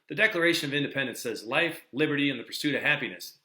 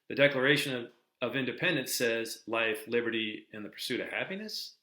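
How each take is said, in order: First: It sounds confident, like an exclamation. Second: It sounds unsure, like a question.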